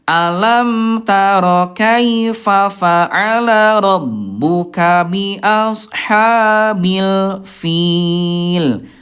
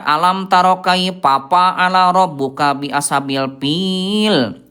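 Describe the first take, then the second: First: The fa sounds are made with lip and teeth, like f. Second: The fa sounds are made with both lips, like p. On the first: The speaker calls it right. "bibir dalam bagian bawah disentuhkan dengan ujung gigi seri atas" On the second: The speaker calls it wrong. "Itu Bunda kurang tepatnya. Jadi bukan pak, bukan bibir sama bibir"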